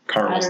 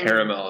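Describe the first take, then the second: First: The word is said with two syllables. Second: The word is said with three syllables. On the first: This is a cheap imitation of the word. The speaker calls it wrong. "Caramel's the knockoff" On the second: This is the original form of the word. The speaker calls it right. "Caramel is like, oh, it's the original"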